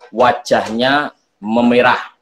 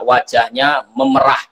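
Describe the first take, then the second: First: Memerah is pronounced as the word for reddening. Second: Memerah is pronounced as the word for milking. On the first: The face turns red. The speaker calls it right. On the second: The face is being milked. The speaker calls it wrong.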